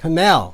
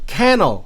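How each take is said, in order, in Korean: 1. 강세는 두 번째 음절에 있어요. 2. 강세는 첫 번째 음절에 있어요.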